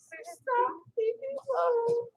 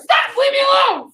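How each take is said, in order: First: It is said in a weak, timid voice. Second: It is said in a strong, confident voice.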